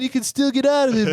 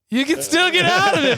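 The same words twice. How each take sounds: First: It sounds light and joking. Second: It sounds sad, with a cracking voice. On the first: The speaker is only teasing. "jokingly sometimes" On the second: The speaker means it with real regret. "But your voice starts cracking"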